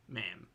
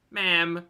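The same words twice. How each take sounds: First: A low, quiet ma'am of disbelief; low disbelieving ma'am. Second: A louder, insistent ma'am; emphatic ma'am. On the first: Scolding Anna for not filming the whales, low and quiet. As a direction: drop the voice, quietly appalled. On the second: Scolding Anna for not filming the whales, louder and insistent. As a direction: say it again with more force. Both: Real, not acted.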